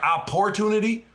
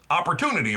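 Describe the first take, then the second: First: The second syllable has a full, clear 'or' vowel. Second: The second syllable is reduced to a short 'er' sound. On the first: "Do you do you say it like opportunity" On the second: "So it sounds like a U"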